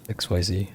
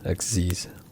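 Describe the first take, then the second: First: It is said as three separate letters. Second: It is said as one short word.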